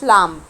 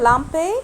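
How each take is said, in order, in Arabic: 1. تنتهي الكلمة بصوت ساكن. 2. تنتهي الكلمة بصوت حرف علة. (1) "ما قلتش لامب" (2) "انا قلت لامبي"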